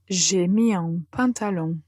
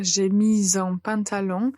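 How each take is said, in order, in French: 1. Une petite pause sépare mis et en. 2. Mis se lie directement à en, avec liaison. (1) "il faut faire une toute petite pause" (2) "On pourrait faire une liaison"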